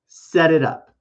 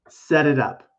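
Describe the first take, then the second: No difference in how they are said.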